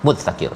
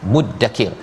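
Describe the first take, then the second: First: The middle consonant is a dz-like sound. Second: The middle consonant is a doubled d sound. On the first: This is the original, harder-to-say form. "dia sepatutnya fahal mim mudzakir... susah nak sebut" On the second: This is the simplified, easier-to-say form. "ditukarkan kepada yang lebih mudah disebutnya"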